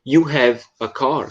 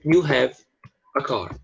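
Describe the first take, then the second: First: "You have a car?" slow, rising on car like a question; wrong way, slow rising question; question by rising tune only. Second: "You have a car." said as a flat statement, falling at the end; plain falling statement; statement tune. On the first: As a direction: ask it with intonation alone, slowly. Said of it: "Você jamais poderia dizer". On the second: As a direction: state it, don't ask it. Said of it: "Isso aqui é uma frase afirmativa". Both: Shown as a demonstration.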